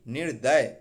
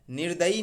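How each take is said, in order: First: निर्दय as nir-day, louder; correct short ending. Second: निर्दयी as nir-da-yee; wrong final ee. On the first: Teacher correcting students, निर्दय without final ee. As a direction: say निर्दय stopping on y. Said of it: "ऐसे बोलना है". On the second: Teacher rejecting a form, निर्दयी ending in ee. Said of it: "निर्दयी नहीं". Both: Shown as a demonstration.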